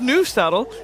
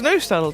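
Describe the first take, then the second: First: The first vowel is not a plain O. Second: The first vowel is a plain O sound. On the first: The speaker calls it wrong. "It's not nose tunnel" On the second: The speaker calls it right. "It's nose tunnel because it's an O"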